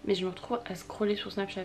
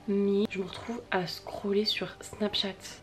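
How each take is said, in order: First: Said in the usual way. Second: Slow and whispered; drawn-out whispered confession. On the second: Acted. Repeats the phrase twice.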